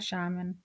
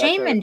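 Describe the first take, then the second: First: The first syllable sounds like 'shah'. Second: The first syllable sounds like 'shame'. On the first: The speaker calls it right. "I like sh- a shaman" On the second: The speaker calls it wrong. "sounds weird, like shame"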